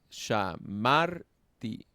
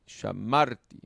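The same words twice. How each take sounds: First: "shamarti" very slowly, syllable by syllable, loud on "mar"; drawn-out "sha-MAR-ti"; stress on second syllable. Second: "shamarti" as one word, loud "mar"; joined-up "sha-MAR-ti"; stress on second syllable. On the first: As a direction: break up "shamarti" and lean on "mar". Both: Shown as a demonstration. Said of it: "suelen llevar el acento en la segunda".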